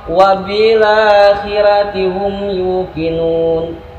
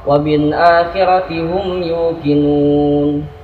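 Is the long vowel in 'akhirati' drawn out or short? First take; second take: drawn out; short. First: The long vowel in akhirati is stretched out longer. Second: The long vowel in akhirati is held briefly. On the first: This follows another recitation tradition. "dengan riwayat lain seperti Imam Waras" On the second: This follows one recitation tradition. "Itu riwayat Imam Hafiz"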